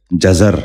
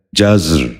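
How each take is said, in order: First: جزر said "ja-zar", in two syllables; a vowel between z and r in جزر; wrong pronunciation. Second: جزر said "jazr", no vowel between z and r; z running straight into a rolled r in جزر; correct pronunciation. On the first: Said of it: "یہ غلط تلفظ ہے". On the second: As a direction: say جزر as one syllable, "jazr". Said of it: "درست تلفظ ہے". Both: Shown as a demonstration.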